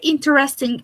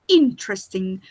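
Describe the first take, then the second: First: The word is said with four syllables. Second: The word is said with three syllables. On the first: The speaker calls it wrong. "is not well pronounced" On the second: The speaker calls it right. "you must say interesting with three syllables"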